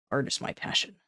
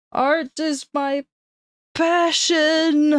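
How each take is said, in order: First: Breathy whisper. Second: High, slow, swelling declaration; dramatic high voice. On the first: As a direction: hush it like a secret. Whispered, then sung out. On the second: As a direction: proclaim it like an opera diva. Dramatic higher repeat. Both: Pretend.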